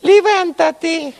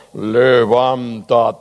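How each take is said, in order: First: Much higher, squeaky mock command; silly high voice. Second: Very slow, drawn-out divine command; deep voice of God. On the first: Pastor contrasts a high squeaky voice that cannot be God's. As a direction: make God sound ridiculous and high. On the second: Pastor shows the congregation a deep God voice, slow and commanding. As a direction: sound like a mighty God calling out. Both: Shown as a demonstration. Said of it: "Y pongo otra voz".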